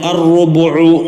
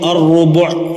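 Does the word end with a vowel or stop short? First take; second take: vowel; stops short. First: The word ends with a short final vowel. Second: The word ends abruptly without the final vowel. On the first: The reading continues past this word. "ലമ്മാക്കപ്പെട്ടതിന് ഉദാഹരണം" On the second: The reciter stops at this word. "വഖഫ് ചെയ്യുമ്പോൾ"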